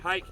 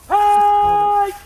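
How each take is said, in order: First: It is said flatly, without energy. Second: It is shouted with excitement.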